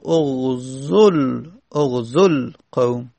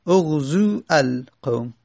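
First: "اغزل قوم" slowly joined as oghzol-qawm; short vowel in "اغزل", running into a held l; vav left unpronounced. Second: "اغزو القوم" as separate words, oghzuu, al-qawm; both quiescents sounded. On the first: Teacher shows how it is pronounced, "اغزل قوم" slow and joined. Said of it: "تلفظ زدن دیگه تلفظ نمی زنیم". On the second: Teacher shows the clash, "اغزو القوم" unjoined with long u. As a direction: keep long u in "اغزو", then a full "al" in "القوم". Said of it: "وو ساکن لام ساکن التقا". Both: Shown as a demonstration.

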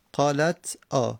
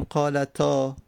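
First: قالت آ slow and split, "qālat... ā"; two separate pieces, قالت / آ; unlinked silent t. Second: قالتا joined as "qālatā"; one word, قالتا, no break; linked with fatha. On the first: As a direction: halt after the t of قالت, then say آ alone. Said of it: "تا ساکنه". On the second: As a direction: run the t of قالتا straight into long ā. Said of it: "تا واجبه که اینجا فتحه بدیم". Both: Shown as a demonstration.

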